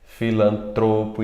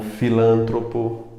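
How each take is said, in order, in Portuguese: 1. A sílaba tônica está na penúltima. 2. A sílaba tônica está na antepenúltima. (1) "palavras paroxítonas" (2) "e não"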